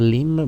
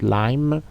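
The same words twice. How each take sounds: First: The vowel is a short, clipped i sound. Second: The vowel is a long 'eye' sound. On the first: The speaker calls it wrong. "pas lime" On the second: The speaker calls it right. "but lime"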